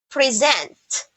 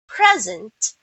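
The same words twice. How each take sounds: First: The stress is on the second syllable. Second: The stress is on the first syllable. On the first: It means to give or show. "if you will put the stress on the second syllable" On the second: It names a gift or the current moment. "you are talking about a noun"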